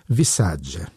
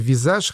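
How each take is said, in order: First: The name ends in a 'dzhi' sound. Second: The name ends in a soft 'zh' sound. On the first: The speaker calls it right. "по-итальянски было бы правильно сказать «Висаджи»" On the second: The speaker calls it wrong. "я думаю, что читается «Визаж»"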